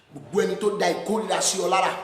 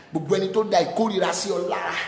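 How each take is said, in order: Both takes have the same delivery.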